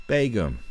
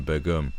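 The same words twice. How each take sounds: First: Begum as BAY-gum, falling from high; long AY vowel opening Begum; corrected pronunciation. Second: Begum as buh-GUM; former pronunciation. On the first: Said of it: "that's how I'm going to say it now". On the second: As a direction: say Begum with a short "buh" first. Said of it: "I was going". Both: Shown as a demonstration.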